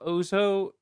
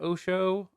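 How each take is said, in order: First: Osho said with a z, "OH-zoh"; alternative pronunciation. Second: Osho said with sh, "OH-shoh"; alternative pronunciation. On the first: Host unsure of the guru's name, Osho as "OH-zoh". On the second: Host offering another reading, Osho as "OH-shoh". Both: Shown as a demonstration. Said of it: "or Osho".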